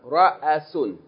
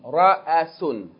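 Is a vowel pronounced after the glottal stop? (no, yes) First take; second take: yes; yes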